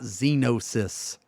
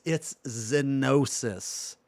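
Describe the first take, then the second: First: "Xenosis" as ZEE-no-sis, long ee; the common wrong "Xenosis", ZEE-no-sis; wrong pronunciation. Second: "Xenosis" said slowly as ZEN-oh-sis; correct pronunciation. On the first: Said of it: "Xenosis, not Xenosis". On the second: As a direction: stretch out "Xenosis", short e first. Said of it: "why does everybody say Xenosis". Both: Shown as a demonstration.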